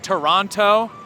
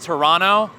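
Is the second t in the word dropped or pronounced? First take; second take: pronounced; dropped. First: The second t is clearly pronounced. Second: The second t is dropped, sounding like n. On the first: The speaker calls it wrong. "It's not Toronto" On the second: The speaker calls it right. "You don't pronounce the second T"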